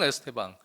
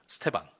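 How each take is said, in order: First: The name begins with an 'eh' vowel. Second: The opening vowel is dropped, starting on 's'. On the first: This is closer to how commentators say it. "애가 더 가깝긴 해요" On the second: This is how Brazilian commentators say it. "이 발음이 약간 묵음처럼 잘 안 들리긴 합니다"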